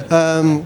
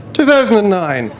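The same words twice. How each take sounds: First: Said in the usual way. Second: Surprised realisation. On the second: Real, not acted. Recalling the year, surprised.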